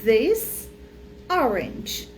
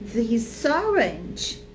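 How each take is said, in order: First: The two words are said separately. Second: The final consonant links into the next vowel. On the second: "que fica junto"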